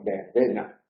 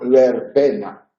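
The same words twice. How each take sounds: First: The first consonant sounds like a b. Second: The first consonant is a distinct v sound. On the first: The speaker calls it right. "pronunciamos verbena" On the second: The speaker calls it wrong. "no pronunciamos verbena"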